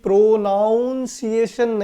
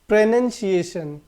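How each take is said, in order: First: The second syllable sounds like 'noun'. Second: The second syllable sounds like 'nun'. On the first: The speaker calls it wrong. "इसको कभी भी प्रोनाउंसिएशन नहीं पढ़ना है" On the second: The speaker calls it right. "क्या पढ़ेंगे इसको?"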